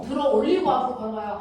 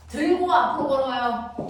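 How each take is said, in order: First: '올리고'를 높고 크게 짚으며 빠르게 이어 가기; 구분할 말 '올리고'에 힘주기; '들어 올리고' 강조. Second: '들고'를 높고 힘 있게 짚고 나머지는 이어서; 구분할 단어 '들고'에 힘주기; '들고' 강조. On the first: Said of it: "들고와 들어 올리고는". ('들어 올리고'의 '올리고'를 힘주어 강조) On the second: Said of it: "얘는 들고라는 건". ('들고'를 또렷하게 강조해서) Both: Shown as a demonstration.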